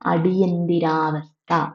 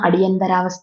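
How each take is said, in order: First: The middle syllable is said as 'nthi' with 'i'. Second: The middle syllable is said as 'ntha' with 'a'. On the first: The speaker calls it right. "അടിയന്തിരാവസ്ഥ എന്നാണ് പറയേണ്ടത്" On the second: The speaker calls it wrong. "അടിയന്തരാവസ്ഥ എന്നാണ് നമ്മൾ പറഞ്ഞുകൊണ്ടിരുന്നത്. ഇനി അങ്ങനെയല്ല പറയേണ്ടത്"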